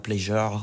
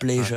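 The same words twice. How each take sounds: First: The word has a French-style pronunciation. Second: The word has an English-style pronunciation. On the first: The speaker calls it wrong. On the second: The speaker calls it right.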